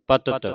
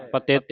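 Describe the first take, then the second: First: ਪਤਿਤ as "patit", short vowel, distinct final t; separated last t. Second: ਪਤਿਤ said "patet", second vowel like e; wrong vowel. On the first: Teacher correcting the reading, ਪਤਿਤ with distinct final t. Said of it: "ਪਿਛਲਾ ਤੱਤਾ ਜਿਹੜਾ ਵੱਖਰਾ ਕਰਕੇ". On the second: Teacher showing the misreading, ਪਤਿਤ as "patet". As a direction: give ਪਤਿਤ an e in the second syllable. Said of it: "ਨਹੀਂ ਪੜਨਾ ਨੂੰ". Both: Shown as a demonstration.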